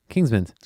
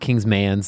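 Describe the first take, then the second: First: The last syllable sounds like 'men'. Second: The last syllable sounds like 'man'. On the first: The speaker calls it right. "pronounce it like an E N" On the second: The speaker calls it wrong. "not an A N"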